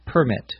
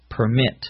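First: PER-mit, first syllable stressed. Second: Per-MIT, second syllable stressed. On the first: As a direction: say "permit" as PER-mit, hit the first part. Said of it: "the accent is on the first syllable". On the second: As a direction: say "permit" as per-MIT, hit the last part. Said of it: "the accent is on the second syllable". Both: Shown as a demonstration.

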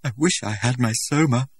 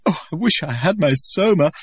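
First: A lightly higher, rote repeat; mechanical. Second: High, loud sobbing plea; tearful longing. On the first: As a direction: say it by rote without feeling. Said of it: "said Lenina mechanically". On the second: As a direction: beg for it through tears. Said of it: "Lenina was still sobbing". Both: A narrator's reading.

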